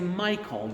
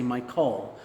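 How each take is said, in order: First: The stress is on the first syllable. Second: The stress is on the second syllable. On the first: The speaker calls it right. "the first syllable a little more strongly" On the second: The speaker calls it wrong. "You wouldn't say Michael"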